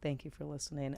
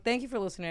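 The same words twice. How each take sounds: First: It is said in a natural, sincere voice. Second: It is said in a put-on voice.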